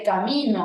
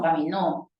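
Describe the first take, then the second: First: "camino" with the stress on MI; ca-MI-no, accent in the middle; stress on middle syllable. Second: "caminó" with the stress on final NÓ; ca-mi-NÓ, accent at the end; stress on last syllable. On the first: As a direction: lean on MI in "camino". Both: Shown as a demonstration. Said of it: "Yo puedo cambiar de camino a caminó".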